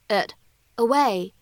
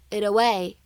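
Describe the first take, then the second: First: The two words are said separately with a clear t. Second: The words are linked and the t is a flap. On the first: "这样的两个单词it away" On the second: "在美式发音当中呢会连读变成it away"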